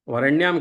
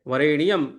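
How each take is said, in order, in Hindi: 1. यह शब्द तीन अक्षरों में बोला जाता है। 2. यह शब्द चार अक्षरों में बोला जाता है। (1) "वरेण्यम के स्थान पे" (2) "वरेणियम ऐसा पढ़ना चाहिए"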